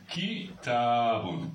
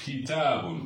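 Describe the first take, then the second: First: Kitabun said slowly, syllable by syllable; teacher modelling kitabun, drawn out; careful slow model word. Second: Said in the usual way. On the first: Shown as a demonstration. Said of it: "le mot kitabun".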